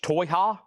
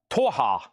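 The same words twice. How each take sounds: First: Toyha tried out with a questioning rise, Toy-ha; sounding out Toyha slowly as a question; testing Toyha with a rising pitch; rising try at Toyah. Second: Toyha said firmly with a falling tune; settled Toyah. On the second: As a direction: land on Toyha like a decision. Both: Shown as a demonstration. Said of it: "That's a T O Y A H".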